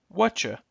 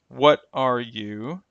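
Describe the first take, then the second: First: The words merge around a ch. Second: The words are said as separate sounds.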